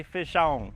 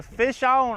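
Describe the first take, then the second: First: Said in the usual way. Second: Fish on shouted high and loud; all caps. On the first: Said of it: "I want the live chat to say". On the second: Shown as a demonstration. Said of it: "all caps".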